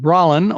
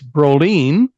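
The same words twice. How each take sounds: First: The name is said with an English pronunciation. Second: The name is said with a Swedish pronunciation. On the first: "but Kane Brolin" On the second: "if you're from Sweden, it's Brolin"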